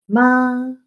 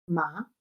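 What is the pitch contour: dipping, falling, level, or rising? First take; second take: level; rising. First: The pitch stays high and level. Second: The pitch rises like a short question. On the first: It means mother. "En el primer tono, ... una raya que está recta porque se sostiene" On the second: It means hemp. "el segundo tono, que suena como una pregunta corta"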